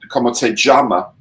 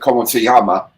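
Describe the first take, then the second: First: The ll in llama sounds like a j. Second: The ll in llama sounds like a y. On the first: "in Caribbean Spanish" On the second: "in Spanish"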